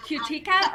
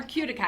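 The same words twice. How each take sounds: First: Cutica as kyoo-TEE-kuh, stressed in the middle; alternative pronunciation. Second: Cutica as KYOO-dih-kuh, stressed up front; alternative pronunciation. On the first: Host unsure of the brand name, Cutica said kyoo-TEE-kuh. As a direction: say Cutica with a long "ee" second syllable. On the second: Host checking the brand name, Cutica said KYOO-dih-kuh. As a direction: say Cutica with a short, unstressed middle syllable. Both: Shown as a demonstration. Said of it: "How do you say it?".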